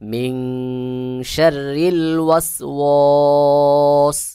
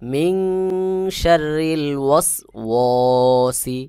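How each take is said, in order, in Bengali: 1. শেষ শব্দটি শুধু 's' ব্যঞ্জন দিয়ে শেষ হয়। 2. শেষ শব্দটি 'i' স্বরধ্বনি দিয়ে শেষ হয়।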